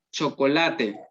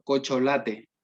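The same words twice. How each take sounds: First: Said in the usual way. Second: Cocholate with the ch and c swapped; swapped sounds. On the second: Shown as a demonstration. Teacher shows the inversion error, cocholate. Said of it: "y dice co".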